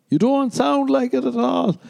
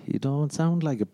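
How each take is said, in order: First: Very high, loud mock protest; exaggerated disbelief. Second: Higher-pitched mock scepticism; mock doubt. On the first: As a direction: push the doubt up into a squeal. Escalates the acted doubting reply. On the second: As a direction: question his claim in a put-on voice. Acted doubting reply to waiter.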